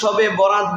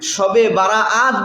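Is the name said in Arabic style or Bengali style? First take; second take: Bengali style; Arabic style. First: The name is said in a shortened Bengali-style form. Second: The name keeps its fuller Arabic-style pronunciation. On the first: "বাঙালিরা একটু পরিবর্তন করে শবে বরাত বলেন" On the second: "শবে বারাআত বলেন"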